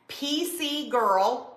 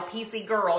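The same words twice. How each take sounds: First: Put-on slow, careful dictation of P C Girl; spelled out slowly. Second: Said in the usual way. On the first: Shown as a demonstration. Host telling viewers what to type, said slowly. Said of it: "or you can type". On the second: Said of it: "P C G I R L".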